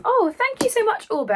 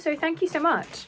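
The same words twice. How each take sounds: First: Gushing thanks. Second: Said in the usual way. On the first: Real, not acted. Thanking sender for surprise book mail.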